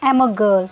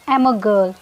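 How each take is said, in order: First: The I sound is left out entirely. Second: The same.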